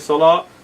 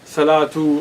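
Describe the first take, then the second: First: The word ends softly with no final vowel. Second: The word ends with a pronounced 'tu' ending. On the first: The speaker calls it right. "You just say salah" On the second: The speaker calls it wrong. "You don't say salatu"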